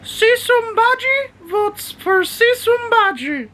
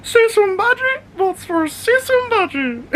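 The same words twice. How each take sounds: First: Very high, slow squeaky voice for Bodhi; high-pitched dog voice. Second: Very high squeaky voice breaking into laughter; laughing high dog voice. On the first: Owner voices his dog Bodhi quoting the pirate scene, very high and slow. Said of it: "go high pitch voice and I start doing Bodhi's voice". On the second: Owner repeats his favourite dog-voice line, very high and laughing. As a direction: squeak it while cracking up. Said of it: "I'm like". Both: Pretend.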